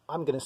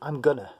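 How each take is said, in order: First: Each word is said in full. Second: It is shortened to "gonna".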